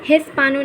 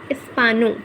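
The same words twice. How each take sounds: First: हिस्पानो with a sounded h at the start; wrong h sound. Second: इस्पानो with no h sound; silent h. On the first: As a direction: breathe an h into हिस्पानो. (ह की आवाज़ के साथ हिस्पानो, गलत तरीका) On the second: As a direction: say इस्पानो, dropping the h. (बिना ह की आवाज़ के इस्पानो) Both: Shown as a demonstration. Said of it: "हिस्पानो नहीं".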